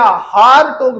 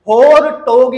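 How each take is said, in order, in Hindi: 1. पहला स्वर लंबी 'aa' की आवाज़ है। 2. पहला स्वर 'o' की आवाज़ है। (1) "आप लोग इसे हारटोग पढ़ लिया करो" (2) "मैं तो इसे होरटोग ही पढ़ता हूं"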